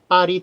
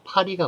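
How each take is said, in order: First: The first consonant is tense, without a breath. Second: The first consonant is aspirated, with a breath. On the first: The speaker calls it wrong. "된소리 표기 서구 외래어 안 됩니다. ... 파리 틀리고요" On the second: The speaker calls it right. "파리가 맞습니다"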